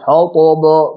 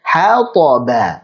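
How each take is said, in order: First: Every syllable is made heavy and thick. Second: Each letter is thick or thin in proportion. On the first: The speaker calls it wrong. "jadi tebal semua. Ini juga salah" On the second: The speaker calls it right. "Ha biasa"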